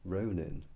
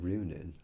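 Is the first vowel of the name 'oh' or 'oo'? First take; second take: oh; oo. First: The first vowel sounds like 'oh'. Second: The first vowel sounds like 'oo'. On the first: This may be how the name is meant to be said. "I wonder if it's supposed to be pronounced Ronin" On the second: This is how the name has been said so far. "I've been pronouncing it Runin"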